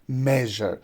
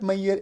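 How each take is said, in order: First: The middle consonant is a voiced zh sound. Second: The middle consonant is not a zh sound. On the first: The speaker calls it right. "it is measure" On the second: The speaker calls it wrong. "People pronounce it Mayer. It's not Mayer"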